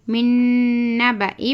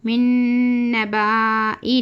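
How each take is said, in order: First: "मिन नबाई" with held n and short "ba"; short vowel. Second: "मिन नबाई" with a long drawn "baa"; wrong long vowel. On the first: Teacher giving the correct reading, नबाई with short ba. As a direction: keep "ba" in "नबाई" short, straight into "i". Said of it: "पढ़ना". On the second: Teacher warning against a misreading, नबाई with baa dragged long. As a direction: stretch the "ba" in "नबाई" into "baaa". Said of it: "नहीं पढ़ना है". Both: Shown as a demonstration.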